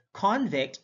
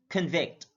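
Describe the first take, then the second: First: CONvict, high full CON; careful demo of CONvict; stress on first syllable. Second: ConVICT, weak first syllable; careful demo of conVICT; stress on second syllable. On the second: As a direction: hit the VICT in "convict". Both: Shown as a demonstration. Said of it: "stress is the verbal emphasis used".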